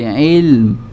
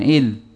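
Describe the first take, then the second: First: The word ends with lips closing on a light m. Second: The word ends without closing the lips for m. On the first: The speaker calls it right. "tapi ilm" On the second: The speaker calls it wrong. "jangan il, kalau il, ini belum ketemu"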